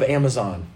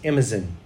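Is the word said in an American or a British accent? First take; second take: American; British. First: It is said in an American accent. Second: It is said in a British accent.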